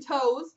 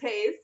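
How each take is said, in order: First: The name rhymes with 'toes'. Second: The name rhymes with 'days'. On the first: The speaker calls it wrong. "I've heard Jonathan Toews for Taze" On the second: The speaker calls it right. "I've heard Jonathan Toews for Taze"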